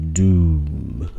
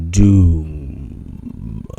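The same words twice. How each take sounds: First: Booming, drawn-out doom. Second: Drawn-out, booming doom voice. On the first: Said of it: "that's my doom voice". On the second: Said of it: "That's my, that's my doom voice". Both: Shown as a demonstration. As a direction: intone it like a doomsayer.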